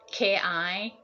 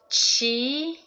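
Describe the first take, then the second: First: The word begins with a k sound. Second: The word begins with a ch sound. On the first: It is the Japanese reading of the character. "if you pronounce as an a ki, ki, then that's from Japan" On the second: It is the Chinese reading of the character. "and chi, qigong, tai chi, that's from China"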